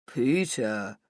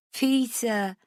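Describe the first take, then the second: First: Lightly lowered mocking imitation; mocking deeper voice. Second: Put-on giggled drunk name; giggling. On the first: Rach mocking Hugo's name to Matt, a lightly deeper mock voice. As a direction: drop the voice to poke fun at him. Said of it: "in a deeper voice like I'm making fun of him". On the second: Drunk Rach giggling at her own mistake to Matt. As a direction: let the name dissolve into a giggle. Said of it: "I giggle". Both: A narrator's reading.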